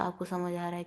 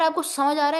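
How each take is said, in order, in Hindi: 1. यह धीमी और नरम आवाज़ में बोला गया है। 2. यह ज़ोर से, लगभग चिल्लाकर बोला गया है। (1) "मैं बहुत लो होके आपसे बात करूं" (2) "थोड़ा सा चीख के आपसे बात करूं"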